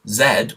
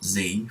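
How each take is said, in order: First: The letter is said as zed, non-North American. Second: The letter is said as zee, North American.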